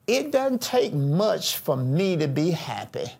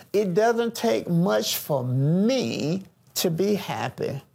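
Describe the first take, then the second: First: Said in the usual way. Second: "me" stretched long and set apart before the rest; slowly, leaning on the word "me"; stress on ME. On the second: Shown as a demonstration. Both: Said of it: "listen at the emphasis now".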